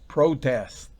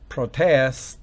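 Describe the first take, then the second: First: The stress is on the first syllable. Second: The stress is on the second syllable. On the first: It is a noun meaning an objection. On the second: It is a verb meaning to object.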